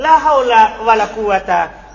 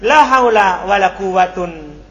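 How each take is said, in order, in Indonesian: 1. Kata terakhir berakhiran -a biasa. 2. Kata terakhir berakhiran -un. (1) "Kalau dia di fathah yang pertama" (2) "dhommatan tanwin"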